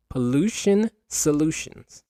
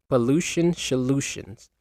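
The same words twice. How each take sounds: First: Slow, higher "Pollution solutions"; careful articulation. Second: "solutions" slurred to "sholutions"; tongue-tied. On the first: Host retries the tongue twister for the episode, carefully articulating "Pollution solutions". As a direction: land a clean s on "solutions", taking it slowly. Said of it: "There we go". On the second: Host stumbles on the name of a pollution episode, tongue-tied "sholutions". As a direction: trip over "solutions", its first sound turning to sh. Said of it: "tongue twisted". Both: Real, not acted.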